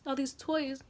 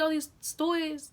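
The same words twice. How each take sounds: First: Said in the usual way. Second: "toys" slurred into something like "stories"; slip of the tongue. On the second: Real, not acted. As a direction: stumble on "toys" with extra sounds. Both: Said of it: "I said toys".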